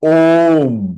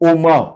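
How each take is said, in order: First: The word ends cleanly on a half m sound. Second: The word ends with an added vowel after m. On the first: The speaker calls it right. "It is not ओमा, it is ओम" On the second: The speaker calls it wrong. "There are पीपल हु आर pronouncing this wrongly"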